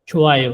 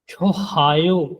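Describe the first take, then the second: First: The middle h sound is nearly silent. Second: The middle h sound is clearly pronounced. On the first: The speaker calls it right. "उसको बहुत हल्का सा" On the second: The speaker calls it wrong. "इस तरह नहीं पढ़ेंगे"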